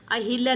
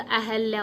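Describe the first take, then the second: First: अहिल्या with an i after h, ahilya; अहिल्या said as the error, clear hi; wrong version. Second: अहल्या with no i after h, ahalya; correct version. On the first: Teacher reading the wrong form aloud, clear hi. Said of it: "नहीं होता". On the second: Teacher correcting the spelling, a-hal-ya. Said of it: "होता". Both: Shown as a demonstration.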